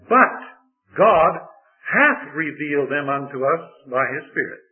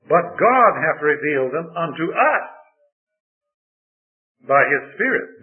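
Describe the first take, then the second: First: The word 'us' is not specially emphasized. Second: The word 'us' is strongly emphasized.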